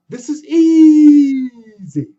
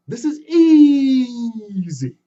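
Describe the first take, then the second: First: Very slow strained "easy" shouted much louder. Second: Very slow strained "easy" with a cry; straining effort. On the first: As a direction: yell it out in full effort. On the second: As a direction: grunt it out mid-climb. Anansi straining again. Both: Acted.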